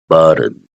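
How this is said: The middle consonant sounds like a soft D. "In Americans they say the T with the D buttons"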